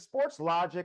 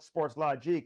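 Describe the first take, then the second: First: Logic ends with a plain English-style sound. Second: Logic ends with a French-style sound.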